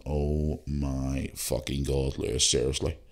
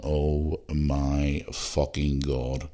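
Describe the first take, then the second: First: Slow, softer, stretched disbelief; mock-despairing aside to Lewis; drawn-out exasperation. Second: Slow, stretched-out oh my God; mock-stunned, dragged-out groan of words; drawn-out disbelief. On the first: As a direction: drag it out, half to yourself. Embarrassed aside in Uber car. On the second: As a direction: let each word hang in disbelief. Stunned aside in Uber car.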